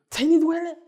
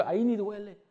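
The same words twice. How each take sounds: First: Higher, louder repeat of ahí ni duele; emphatic repeat. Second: Said in the usual way. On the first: Retold or imitated. Father insisting to crying child, louder and higher. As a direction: push the second ahí ni duele up and out.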